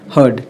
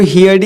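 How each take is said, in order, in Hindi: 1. स्वर 'her' शब्द जैसा सुनाई देता है। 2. स्वर 'here' शब्द जैसा सुनाई देता है। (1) "हर्ड होगा" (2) "इसको इसको हियर्ड ही पढ़ देते हैं"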